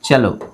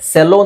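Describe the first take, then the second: First: The word begins with a ch sound. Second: The word begins with an s sound. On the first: The speaker calls it right. "ಚೆಲೋ ಅಂತ ಹೇಳ್ಬೇಕು" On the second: The speaker calls it wrong. "ಸೆಲೋ ಅಂತ ಅನ್ಸ್ಬೋದು"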